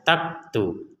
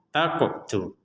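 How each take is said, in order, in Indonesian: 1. Bunyi q ditutup tanpa pantulan bergema. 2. Bunyi q dilepas dengan pantulan bergema. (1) "Kalau tidak ada pantulan akan terbaca taktu" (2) "kita harus memantulkannya"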